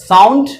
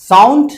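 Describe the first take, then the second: Both takes have the same delivery.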